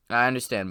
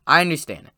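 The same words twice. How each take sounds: First: Said in the usual way. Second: I said a little louder and higher; stress on I. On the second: Shown as a demonstration. To viewers who pick the plot apart, stressing I. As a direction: lean on I, then let it go.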